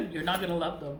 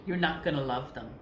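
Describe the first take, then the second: First: Said in the usual way. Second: Fast, breaking into a laugh. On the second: Real, not acted. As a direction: rush it out while starting to laugh. Laughing mid-sentence.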